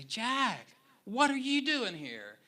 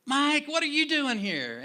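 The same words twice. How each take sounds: First: High, louder surprised call across the room; surprised friend calling out. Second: Much higher, loud overjoyed cry; delighted shout. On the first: Old friend Mike surprising the pastor in the sanctuary, surprised call. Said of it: "I hear this voice say". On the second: Pastor spotting his old friend out of context, overjoyed shout. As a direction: shout it like a shocked reunion. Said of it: "he's like". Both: Retold or imitated.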